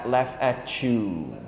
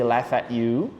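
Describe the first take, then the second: First: The T and Y blend into a ch sound. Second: The T sound is left out entirely. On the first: "Or they may sound like a ch" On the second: "They may not pronounce the T"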